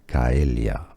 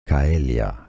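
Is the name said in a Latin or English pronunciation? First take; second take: Latin; Latin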